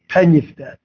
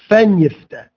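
First: The first word begins with a hard p. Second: The first word begins with a soft f. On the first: The speaker calls it right. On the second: The speaker calls it wrong.

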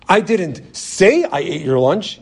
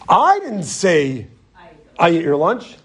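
First: The stress falls on the word say. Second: The stress falls on the first word I. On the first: The lunch was eaten without anyone saying so. "You know what I did? I just ate it" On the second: Someone else said the lunch was eaten.

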